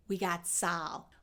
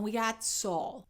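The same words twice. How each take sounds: First: "Saul" with an open ah, like "Sal"; mistaken ah vowel. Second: "Saul" with a rounded aw; Chicago aw vowel. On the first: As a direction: slowly say "Saul" as sahl. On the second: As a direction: slowly say "Saul" as sawl. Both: Shown as a demonstration. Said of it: "I don't say".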